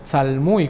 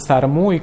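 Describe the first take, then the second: First: The middle consonant is an L sound. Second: The middle consonant is an R sound. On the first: The speaker calls it right. "en realidad debería ser tzalmuy con L" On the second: The speaker calls it wrong. "muchos le dicen sarmuy"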